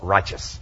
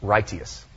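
First: Righteous as "RY-chus", two syllables; softened modern pronunciation. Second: Righteous as "RIGHT-ee-us", three syllables; four-hundred-year-old pronunciation. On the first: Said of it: "We softened it. We call it". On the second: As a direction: keep the hard t in righteous, then "ee-us". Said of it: "when it was pronounced in the English four hundred years ago". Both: Shown as a demonstration.

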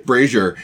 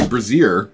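First: "brazier" said as BRAY-zher; "brazier" as BRAY-zher, after a laugh; corrected pronunciation. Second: "brazier" said as bruh-ZEER; "brazier" with a Z sound and long ee; mispronunciation. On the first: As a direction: stress the first syllable of "brazier", with a zh sound. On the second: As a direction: stress the second syllable of "brazier", ending in ZEER. Says it oddly, then corrects it. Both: Real, not acted.

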